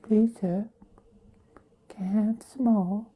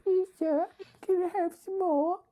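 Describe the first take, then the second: First: High pleading orphan plea, paws out; Oliver Twist begging. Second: Very high pleading orphan voice; Oliver Twist begging. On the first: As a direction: beg like a hungry orphan. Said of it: "kinda look like Oliver". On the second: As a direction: beg like a small orphan boy. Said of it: "Like Oliver". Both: Retold or imitated.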